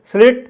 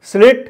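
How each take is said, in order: Both takes have the same delivery.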